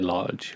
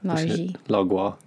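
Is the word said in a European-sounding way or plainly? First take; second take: plain; European. First: The word is said in a plain English way. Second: The word is said with a put-on European sound. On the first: "we don't say large" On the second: "a more European sound"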